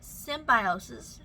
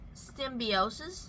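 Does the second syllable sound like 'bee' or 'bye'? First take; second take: bye; bee. First: The second syllable sounds like 'bye'. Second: The second syllable sounds like 'bee'. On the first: The speaker calls it wrong. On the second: The speaker calls it right.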